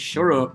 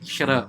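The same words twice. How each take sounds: First: It is said in a Yorkshire accent. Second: The T in the middle sounds like a D. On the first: "if you're in Yorkshire" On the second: "maybe you turn the T into a D"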